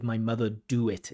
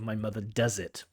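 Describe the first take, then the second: First: Said in the usual way. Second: "does" leaned on, quietly; correct form, softly. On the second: Shown as a demonstration. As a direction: give the right form gently. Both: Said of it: "instead of".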